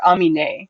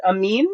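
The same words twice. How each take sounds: First: Amine with an extra final syllable, "-mee-nay"; alternative pronunciation. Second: Amin as two syllables, ending "-meen"; two-syllable pronunciation. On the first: Host offers chat the other option, Amine with its final e sounded. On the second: Host asks chat how to say a name, Amin ending in "-meen". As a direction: say Amin rising, with a long ee at the end. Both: Shown as a demonstration. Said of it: "is that one pronounced Amin or Amine".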